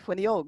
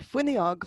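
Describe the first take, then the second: First: The stress is on the last syllable. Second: The stress is on the first syllable. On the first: This is how it is said in the south and west. "with the stress on the end of it" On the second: This is how it is said in Dublin. "like you'd say in Dublin"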